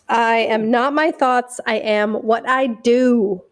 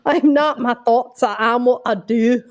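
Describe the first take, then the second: First: It is said in the speaker's own accent. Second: It is said in a Scottish accent.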